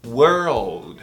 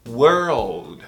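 First: The R sound is clearly pronounced. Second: The R sound is clearly pronounced.

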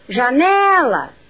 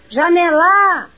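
First: The stress is on the second syllable. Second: The stress is on the third syllable. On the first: The speaker calls it right. "depois na segunda" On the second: The speaker calls it wrong. "por fim, na terceira"

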